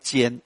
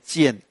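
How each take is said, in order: First: The syllable is said with a high level tone. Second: The syllable is said with a falling tone. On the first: The speaker calls it wrong. "这个不要练尖" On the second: The speaker calls it right. "要练去声"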